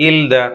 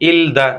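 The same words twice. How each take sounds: The two takes are said the same way.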